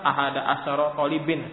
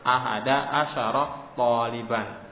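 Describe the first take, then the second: First: The last word ends in -in. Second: The last word ends in -an. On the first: The speaker calls it wrong. "salah kalau antum sebutkan" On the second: The speaker calls it right. "Wajib dibaca dengan fathah"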